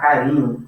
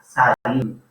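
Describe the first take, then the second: First: The word begins with a K sound. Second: The word begins with an S sound. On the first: The speaker calls it right. "C como A não forma o som de S" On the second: The speaker calls it wrong. "não forma Sa, sarinho"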